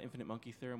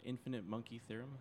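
First: It is said at a normal pace. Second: It is said slowly.

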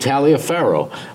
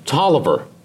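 First: The name is said letter by letter as Taliaferro. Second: The name is said short, sounding like Tolliver. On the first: This is how the spelling suggests it. The speaker calls it wrong. "if you were to pronounce it just on the spelling, it would be Taliaferro" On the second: This is how the owner of the name says it. The speaker calls it right. "but he pronounced it Mike Tolliver"

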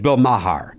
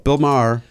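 First: The surname is said as spelled, not rhyming. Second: The surname is said to rhyme with star. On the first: The speaker calls it wrong. "Cause it's M-A-H-E-R" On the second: The speaker calls it right. "as in star"

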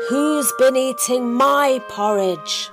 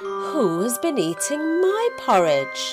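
First: The question is said in a very loud voice. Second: The question is said in a medium voice. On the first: A big character is speaking. "said in a very loud voice" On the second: A medium-sized character is speaking. "said in a medium-sized voice"

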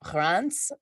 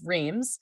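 First: The name is pronounced the local French way. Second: The name is pronounced the English way. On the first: This is what the locals call the town. The speaker calls it right. "the right name" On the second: This is what outsiders call the town. The speaker calls it wrong. "otherwise known to the rest of the world as Reims"

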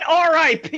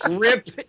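First: It is said as three separate letters. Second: It is said as one word, rip. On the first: The speaker calls it right. "How about R.I.P.?" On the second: The speaker calls it wrong. "Rip Gene"

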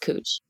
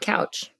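First: The vowel is an 'oo' sound, not as spelled. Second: The vowel is an 'ow' sound, as spelled. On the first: It is the local way of saying it. "But it's cooch, which just sounds sexual" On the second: It follows the spelling. "It's spelled like couch. And so we should pronounce it couch"

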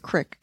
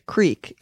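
First: It is said North Dakota style, short vowel. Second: It is said with a long 'ee' vowel.

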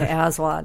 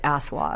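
First: The middle consonant is a buzzing z sound. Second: The middle consonant is a hissing s sound. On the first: The speaker calls it right. "sort of a hard Z" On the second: The speaker calls it wrong. "as opposed to Aswad"

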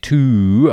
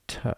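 First: The vowel is full and clear. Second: The vowel is reduced to a schwa. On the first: The speaker calls it wrong. "I didn't say to" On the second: The speaker calls it right. "I said t"

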